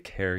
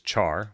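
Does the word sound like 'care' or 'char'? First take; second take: care; char. First: It sounds like care, as in character. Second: It sounds like char, meaning to burn. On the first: "it's pronounced care in character. So some people actually say care here" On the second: "some people say this as char, which is an English word to burn something"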